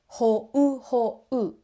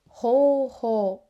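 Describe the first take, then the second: First: Two separate vowel sounds are pronounced in each syllable. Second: A single vowel sound is held long instead. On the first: The speaker calls it wrong. "We don't say" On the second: The speaker calls it right. "We say ho-ho, extending the o vowel"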